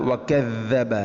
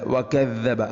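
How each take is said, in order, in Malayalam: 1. ഇരട്ടിച്ച മധ്യ വ്യഞ്ജനത്തിന് മൃദുവായ th എന്ന ശബ്ദമാണ്. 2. ഇരട്ടിച്ച മധ്യ വ്യഞ്ജനത്തിന് മൃദുവായ th എന്ന ശബ്ദമാണ്.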